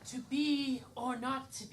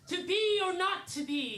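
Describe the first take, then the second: First: It is said with little feeling. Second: It is said with more heart and feeling.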